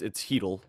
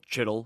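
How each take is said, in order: First: The name starts with a soft breathy 'h' sound. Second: The name is said as it is spelled. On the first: The speaker calls it right. "It's Hedl" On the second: The speaker calls it wrong. "It's spelled Chittle, if you're one of the people who say it that way"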